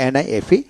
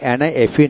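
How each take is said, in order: Both takes have the same delivery.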